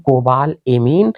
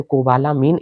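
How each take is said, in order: First: कोबाल एमीन with कोबाल closed on L, then एमीन; कोबाल एमीन split before the e sound; two-word form. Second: कोबालामीन with an open laa in the middle; कोबालामीन run together, laa replacing the e sound; joined variant. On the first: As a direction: say कोबाल एमीन as two words, kobaal e-meen. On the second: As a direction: say कोबालामीन as ko-baa-laa-meen. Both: Shown as a demonstration. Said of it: "कई कई लोग इसे कोबालामीन भी कहते हैं".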